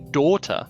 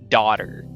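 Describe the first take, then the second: First: It is said in a British accent. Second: It is said in a stereotypical American accent. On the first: "the British would be daughter" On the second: "you got to go like the stereotypical American accent"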